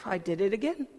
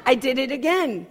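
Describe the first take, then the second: First: Soft, quiet "I did it again" with a little laugh; sheepish realization. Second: "I did it again" louder, falling in self-reproach; exasperated at self. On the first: Caught rambling in front of colleagues, quiet sheepish laugh. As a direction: catch yourself, embarrassed, half laughing. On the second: Realizing she overshared again, louder and exasperated. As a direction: scold yourself for slipping up. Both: Retold or imitated. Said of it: "I'm like".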